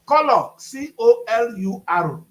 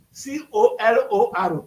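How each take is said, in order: First: "Color, C O L U R" spelled letter by letter, slow and loud; spelled out slowly. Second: "C O L O R" spelled letter by letter, slow; spelled out slowly. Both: Shown as a demonstration.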